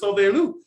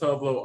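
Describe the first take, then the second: First: The name is said as three syllables. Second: The name is said as two short syllables. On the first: The speaker calls it right. "but it's [name]" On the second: The speaker calls it wrong. "I pronounced it as Tovlo all these years"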